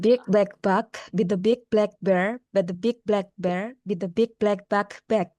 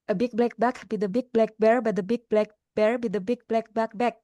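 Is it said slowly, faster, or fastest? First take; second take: slowly; fastest. First: It is said slowly. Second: It is said as fast as possible.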